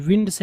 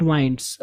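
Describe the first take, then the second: First: "winds" with a short i, like window; teacher showing the right "winds". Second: "winds" with a long i, like wine; the mistake: "winds" rhyming with minds; teacher imitating the wrong "winds". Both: Shown as a demonstration. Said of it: "not winds".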